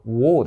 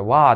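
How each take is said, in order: First: The vowel is a rounded 'aw' sound. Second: The vowel is an open 'ah' sound. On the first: The speaker calls it right. "これウォーですからね" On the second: The speaker calls it wrong. "これワーって言ってる人いっぱいいますね"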